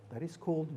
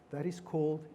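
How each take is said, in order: Both takes have the same delivery.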